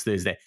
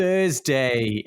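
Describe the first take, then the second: First: Said in the usual way. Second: THURSDAY drawn out, loud start, falling away; imitated special pronunciation. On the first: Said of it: "completely different to a regular". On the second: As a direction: mimic his test-match THURSDAY, stretched with emphasis. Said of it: "the way that you pronounce Thursday".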